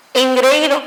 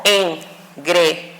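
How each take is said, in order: First: Said in the usual way. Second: "engreído" split into EN, GRE, Í, DO with pauses; syllable by syllable. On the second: Shown as a demonstration. Teacher dividing the word, "engreído" as en-gre-í-do. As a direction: separate "engreído" slowly, en... gre... í... do. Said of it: "se separaría como".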